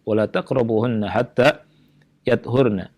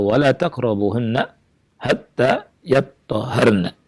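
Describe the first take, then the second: First: The last word has single t and h sounds. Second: The last word has doubled t and h sounds. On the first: "takhfif, yakni tanpa tasydid" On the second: "dengan tasydid"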